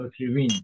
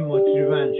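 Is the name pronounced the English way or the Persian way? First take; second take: English; Persian. First: The name is said with an English pronunciation. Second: The name is said with a Persian pronunciation. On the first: "شاید انگلیسی بگین اوتریوین" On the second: "ما میگیم اوتریون"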